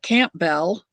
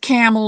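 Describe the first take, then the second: First: It is said as spelled, with a p sound. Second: It is said like camel, with no p sound. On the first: It follows the written spelling. "Some people in the United States call it Campbell because that's the way it's written" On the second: It is the speaker's own family usage. "But I call it camel, like camel soup"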